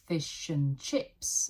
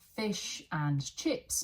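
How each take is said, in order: First: The word 'and' shrinks to a weak 'n'. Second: The word 'and' is said in full.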